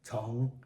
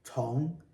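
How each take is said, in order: First: The pitch dips low, then rises. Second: The pitch rises from middle to high. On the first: "Third tone" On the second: "This one is second tone"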